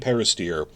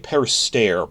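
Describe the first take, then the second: First: The last syllable sounds like 'steer'. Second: The last syllable does not sound like 'steer'. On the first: The speaker calls it right. "he pronounces it steer, like the heifer" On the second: The speaker calls it wrong. "I used to say Perister"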